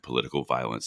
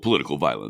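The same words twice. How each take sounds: First: The phrase is said plainly, without extra force. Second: The phrase is said with heavy, dramatic force. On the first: The speaker calls it wrong. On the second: The speaker calls it right.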